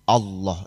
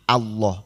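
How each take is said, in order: First: The first vowel is a rounded 'o'. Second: The first vowel is a clear open 'a'. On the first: The speaker calls it wrong. "Jangan Allah, itu O namanya" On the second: The speaker calls it right. "harus tegas A"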